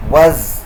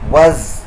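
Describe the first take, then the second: First: The word is said with a reduced vowel. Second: The word is said with a reduced vowel.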